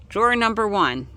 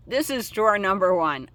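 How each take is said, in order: First: Said in the usual way. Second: THIS said with a firm falling stress. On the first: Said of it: "I, no". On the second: Real, not acted. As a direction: lean on the word this to correct yourself. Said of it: "I mislabeled".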